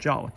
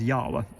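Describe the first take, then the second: First: The name begins with a J sound. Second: The name begins with a Y sound. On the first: The speaker calls it wrong. "a lot of people will see this brand and pronounce it as Jawa" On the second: The speaker calls it right. "the letter J is pronounced Y"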